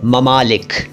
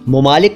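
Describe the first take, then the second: First: The first syllable has an 'a' vowel. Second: The first syllable has a 'u' vowel. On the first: The speaker calls it right. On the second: The speaker calls it wrong.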